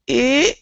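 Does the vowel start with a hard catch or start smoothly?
hard catch. The vowel starts and ends with a throat catch. The speaker calls it wrong. "You're doing eh, eh. I think you're you're grabbing when you start and you're closing at the end"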